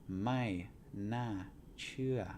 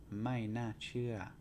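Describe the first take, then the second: First: "Mai na chua" spoken slowly, falling on "chua"; slow Thai phrase. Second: "Mai na chua" at a steadier pace, falling on "mai"; Thai phrase. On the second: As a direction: say "Mai na chua" more smoothly, stressing "mai". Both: Shown as a demonstration. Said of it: "falling tone again".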